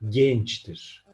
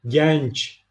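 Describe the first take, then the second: First: The e vowel is closed. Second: The e vowel is open. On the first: The speaker calls it right. "kapalı E telaffuzunun kilit sözcüklerinden biri" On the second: The speaker calls it wrong. "Genç değildir"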